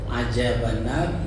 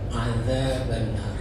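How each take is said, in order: First: The middle consonant is a j sound. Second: The middle consonant is a soft dh sound. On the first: The speaker calls it wrong. "ada juga dengan jim" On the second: The speaker calls it right. "Jadi harus dengan dal"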